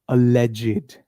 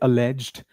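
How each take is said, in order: First: The word ends in an extra id syllable. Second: The word ends in a plain d sound. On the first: The speaker calls it right. "the correct pronunciation is alleged. ... Is a leg id" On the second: The speaker calls it wrong. "Many people say alleged"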